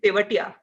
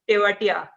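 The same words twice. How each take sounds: First: The name is said with an Indian pronunciation. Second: The name is said with an anglicized pronunciation. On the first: The speaker calls it right. "I'm not sure, but probably" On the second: The speaker calls it wrong. "mispronounced and has been accepted as uh, the other, or rather the anglicized version"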